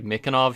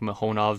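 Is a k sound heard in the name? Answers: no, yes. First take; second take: yes; no. First: The name is said with a k sound. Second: The name is said without a k sound. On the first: The speaker calls it wrong. "I guess I was thinking it's pronounced like Mikonov" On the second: The speaker calls it right. "not to pronounce it with the K"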